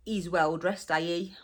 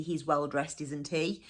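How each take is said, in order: First: HE'S without its h, "ees"; dropped H's. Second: Said in the usual way. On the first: Shown as a demonstration. Teacher gives dialect example, HE'S said "ees" without h. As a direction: drop the h so HE'S becomes "ees". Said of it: "So we drop our H's". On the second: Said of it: "So that would be".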